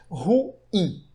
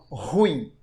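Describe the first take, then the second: First: The word is said as two separate syllables. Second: The word is said as a single syllable. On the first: The speaker calls it right. "A pronúncia correta é ruim" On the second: The speaker calls it wrong. "como se fosse um monossílabo, como se fosse um ditongo"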